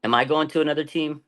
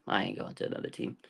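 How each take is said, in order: First: Said in the usual way. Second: Whispered answer. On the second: Retold or imitated. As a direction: whisper it, much softer. Rhetorical question then answer.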